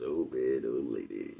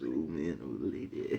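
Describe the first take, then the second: First: Low, quiet imitation of the nephew; lightly voiced nephew, low and soft; imitating nephew. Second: Low, soft nephew voice; a hint of the nephew, low and quiet; imitating nephew again. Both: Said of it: "Nephew says".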